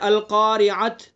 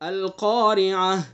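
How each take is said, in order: First: The word ends with a plain t sound. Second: The word ends with a soft h sound. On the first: The speaker calls it wrong. "बहुत से लोग यूं पढ़ते हैं ... ये गलत है" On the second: The speaker calls it right. "वफ करेंगे तो रुकेंगे"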